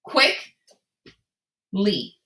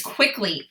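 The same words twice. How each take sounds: First: "quick" rising, long pause, then "Lee"; two separate parts, "quick, Lee", with a gap; word in parts. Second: Said in the usual way. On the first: Shown as a demonstration. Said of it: "take those two parts". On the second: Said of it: "crash them together".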